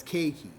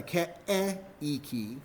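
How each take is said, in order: First: "Keiki" as KAY-kee, vowels merged; "Keiki" with one gliding "ay"; correct, two syllables. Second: "Ke'eiki" broken into slow separate vowels, keh-eh-ee-kee; slow, over-split "Ke'eiki"; wrong, vowels separated. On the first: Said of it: "You pronounce it as Keiki". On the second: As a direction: pull "Ke'eiki" apart sound by sound. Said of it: "you don't pronounce it as". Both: Shown as a demonstration.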